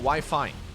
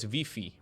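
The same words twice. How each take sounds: First: The vowels are pronounced like 'eye'. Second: The vowels are pronounced like 'ee'.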